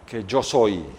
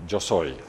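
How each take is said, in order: First: Said in the usual way. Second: Much softer, fading repeat; soft echo. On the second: Acted. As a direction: let it fall away like an echo. God's answer echoed.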